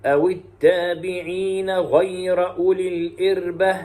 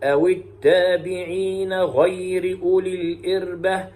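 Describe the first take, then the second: First: Slow melodic recitation, fatha on the ra of "غير"; Shu'ba's recitation. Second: Slow melodic recitation, kasra on the ra of "غير"; Hafs's recitation. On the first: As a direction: chant "غير" as ghayra. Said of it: "أي بفتح الراء". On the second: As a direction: chant "غير" as ghayri. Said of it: "ويقرأ حفص بكسر الراء". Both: Shown as a demonstration.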